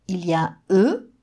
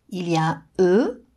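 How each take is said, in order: No difference in how they are said.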